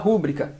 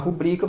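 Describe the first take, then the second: First: The stress is on the first syllable. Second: The stress is on the second syllable. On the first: The speaker calls it wrong. "você fala rúbrica. Isso é uma silabada" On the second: The speaker calls it right. "Ao invés de falar"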